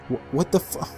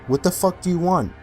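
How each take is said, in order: First: It is said as a frightened, stammering whimper. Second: It is said in an angry, commanding tone.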